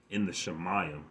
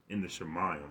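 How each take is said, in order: Both takes have the same delivery.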